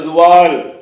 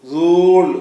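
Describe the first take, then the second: First: Two syllables, with the silent letters sounded. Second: One syllable with a lengthened vowel. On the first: "அல்ல" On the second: "அல்ல"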